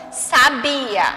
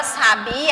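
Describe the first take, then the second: First: "sabia" stressed on bi. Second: "sabia" with the last "a" strong and open; stressed open á. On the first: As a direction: say "sabia" stressed on the middle syllable. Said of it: "Se não tivesse o acento". ("sabia" com força no "bi") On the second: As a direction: hit the final á of "sabia". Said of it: "o A vai ficar mais forte". ("sabiá" com o "á" forte e aberto) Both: Shown as a demonstration.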